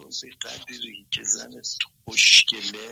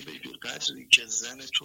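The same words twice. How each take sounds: First: Slow, hushed whisper of the quoted line. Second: Said in the usual way. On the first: Retold or imitated. Caller retelling Osho's line to the host, whispered slowly. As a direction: lean in and breathe it like a secret.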